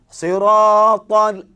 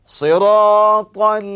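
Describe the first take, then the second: The two takes are said the same way.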